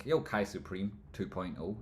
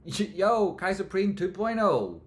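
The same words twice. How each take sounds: First: Said in the usual way. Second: Much higher, louder, slow hype call; laughing hype-man shout-out. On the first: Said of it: "repeats it hyped". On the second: Acted. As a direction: yell it like an announcer. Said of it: "repeat hyped".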